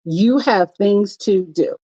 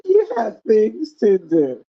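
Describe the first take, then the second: First: Slow firm push. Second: Slow deliberate stress; slow drawn-out firm reminder; slow emphatic repeat. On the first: Retold or imitated. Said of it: "It's like". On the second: Shown as a demonstration. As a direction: draw each word out firmly.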